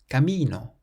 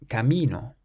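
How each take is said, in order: Both takes have the same delivery.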